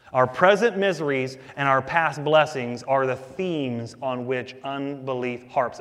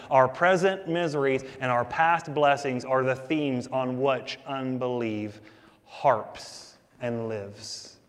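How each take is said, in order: First: Said in the usual way. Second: Slowing down and dropping at the end; slow, weighty restatement for the congregation; slow emphatic repeat. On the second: Shown as a demonstration. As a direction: lean on it the second time, slower. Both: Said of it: "I'm gonna say that again".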